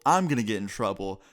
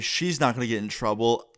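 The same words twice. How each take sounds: First: "I'm" picked out as the one in trouble; contrastive stress. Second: "she's not" picked out against the rest; contrastive stress. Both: Retold or imitated. Contrasts who will get in trouble.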